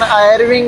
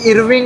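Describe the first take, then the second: First: The name begins with an 'eye' vowel. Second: The name begins with an 'ee' vowel. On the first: "pronunciation आयरविंग है कि इरविंग है" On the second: "मैं तो इरविंग कह देता हूँ"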